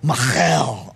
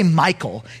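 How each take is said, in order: First: The name has a guttural throaty sound. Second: The name has a plain English sound. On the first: The speaker calls it right. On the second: The speaker calls it wrong. "if you just say Michael, it sounds like David's married to a dude"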